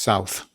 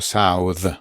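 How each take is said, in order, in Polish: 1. Końcowy dźwięk th jest bezdźwięczny. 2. Końcowy dźwięk th jest dźwięczny. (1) "Bezdźwięczne. ... A to jest south" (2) "To by było south"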